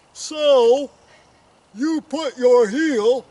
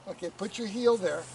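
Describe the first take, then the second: First: Slow, high, over-the-top shout; exaggerated loud voice. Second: Said in the usual way. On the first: Coach overdoing a request to be louder, slow mock shout. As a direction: boom each word out slowly, hammed up. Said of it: "could be a little bit louder".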